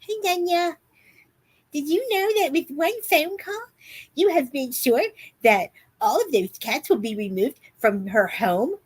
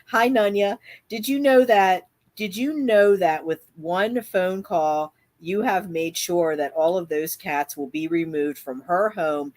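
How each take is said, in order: First: It is read in a put-on voice. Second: It is read in her normal voice.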